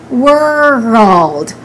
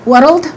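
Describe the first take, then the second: First: A short uh vowel separates R and L. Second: The R and L are joined directly. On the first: The speaker calls it right. "We say world" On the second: The speaker calls it wrong. "We don't combine them. We don't say world"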